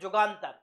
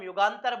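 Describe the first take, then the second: First: The word begins with a J sound. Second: The word begins with a Y sound. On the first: This is how Bengali speakers say it. "वो यू यू को जा pronounce करते हैं, इसलिए जुगांतर" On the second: This is how Hindi speakers say it. "जैसे हम युगांतर बोलते हैं"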